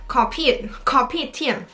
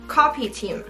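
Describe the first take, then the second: First: It is said with a Singaporean-style pronunciation. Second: It is said with a plain, non-Singaporean pronunciation. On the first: The speaker calls it right. "我觉得新加坡人应该会念copy team" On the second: The speaker calls it wrong. "它应该不是这样念"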